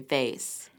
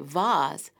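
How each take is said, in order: First: It is said with an American pronunciation. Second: It is said with a British pronunciation.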